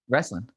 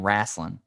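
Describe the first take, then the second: First: The first vowel sounds like an E. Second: The first vowel sounds like an A. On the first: "I'm literally saying it with an E" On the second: "you're saying it with an A"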